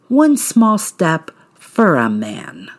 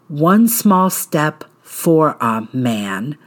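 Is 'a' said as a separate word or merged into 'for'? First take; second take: merged; separate. First: The word 'a' is blended into 'for'. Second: The word 'a' is said clearly on its own. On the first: "Use the word for a" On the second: "Instead of saying"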